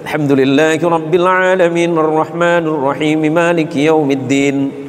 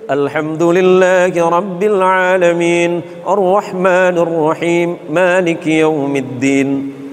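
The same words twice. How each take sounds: First: It is recited quickly. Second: It is recited at a medium pace. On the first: "Yang hadr"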